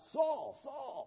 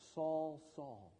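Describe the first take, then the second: First: The name is called sharply and harshly. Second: The name is called softly and tenderly. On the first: The caller speaks in rebuke. The speaker calls it wrong. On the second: The caller speaks with love. The speaker calls it right. "a term of endearment in Hebrew language"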